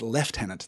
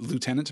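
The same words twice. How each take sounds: First: The first syllable is said with an f sound. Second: The first syllable is said without an f sound. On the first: This is the British way to say it. "the U was not a U, it was a V. ... It was a harder sound. So when that came into British English, it was left as lieutenant" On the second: This is the American way to say it. "So it is spelled lieutenant. So pronouncing it lieutenant makes a lot of sense"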